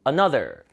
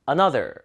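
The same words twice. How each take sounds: The two takes are said the same way.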